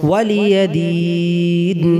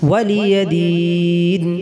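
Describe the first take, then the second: The two takes are said the same way.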